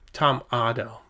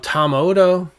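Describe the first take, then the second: First: The surname is said unlike the end of Komodo. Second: The surname is said like the end of Komodo. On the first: The speaker calls it right. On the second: The speaker calls it wrong.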